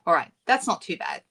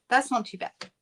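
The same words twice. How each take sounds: First: Said in the usual way. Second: Repeated with a light laugh; amused little laugh while saying it. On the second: Real, not acted. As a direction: chuckle through the words. Repeats phrase, second with laugh.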